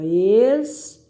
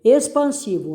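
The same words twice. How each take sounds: First: "Expansivo" as ex, pan, si, vo, long pauses between; separando sílabas. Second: Said in the usual way. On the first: Shown as a demonstration. ("Expansivo" sílaba por sílaba, bem pausado) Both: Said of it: "separe as sílabas dessas palavras".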